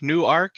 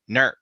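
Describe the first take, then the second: First: The name is said with two syllables. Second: The name is squeezed into one syllable. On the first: This is the usual way elsewhere. "you got a Newark, Newark as well?" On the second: This is how the locals in Ohio say it. "we pronounce it Nurk"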